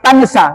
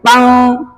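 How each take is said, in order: First: The n is pronounced as a clear n. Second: The n is hidden and nasalized like ng. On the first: The speaker calls it wrong. "bukan tansa" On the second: The speaker calls it right. "tapi tang, mirip-mirip enge"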